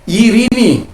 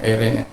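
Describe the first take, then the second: First: The word begins with an ee sound. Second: The word begins with an ei sound.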